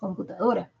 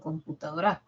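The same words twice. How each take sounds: First: The stress is on the second-to-last syllable. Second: The stress is not on the second-to-last syllable. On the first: The speaker calls it right. "Es computadora. Es grave" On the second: The speaker calls it wrong. "No es computadora"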